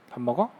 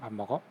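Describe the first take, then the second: First: It is said as a question. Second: It is said as a firm command. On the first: The speaker asks whether the listener is eating a meal. "먹는 소리가 나니까" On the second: The listener is told to eat the meal. "엄마 사과 먹고 싶어요?"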